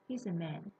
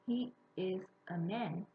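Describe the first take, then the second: First: He and is are contracted into one syllable. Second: He and is are said as separate words. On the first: "the native speaker would say" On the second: "instead of saying"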